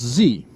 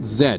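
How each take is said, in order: First: The letter is said the US way. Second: The letter is said the Canadian way. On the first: "in the U S, ... is pronounced Z" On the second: "In Canada, we pronounce it Z"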